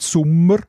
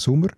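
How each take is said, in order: First: The M is held long. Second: The M is short, Saas style.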